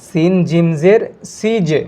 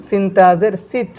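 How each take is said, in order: First: সিজে with a slow echoing bounce on জ; qalqala bounce. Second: সিত ended cleanly, ত not bounced; no bounce. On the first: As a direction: bounce the জ, slowly. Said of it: "এখানে একটি ধাক্কা খাচ্ছে". (সিজে-তে জ-এর ধাক্কা, ধীরে) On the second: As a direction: close সিত without an echo. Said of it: "এই হরফটা দেখেন". (সিত-এ কোনো ধাক্কা নেই) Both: Shown as a demonstration.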